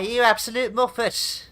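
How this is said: It is said in a light, joking tone. The insult is friendly teasing. "banter, crack, laugh and a giggle"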